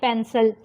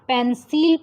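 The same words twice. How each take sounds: First: The second vowel is a weak, reduced vowel. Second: The second vowel is a full vowel. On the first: The speaker calls it right. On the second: The speaker calls it wrong.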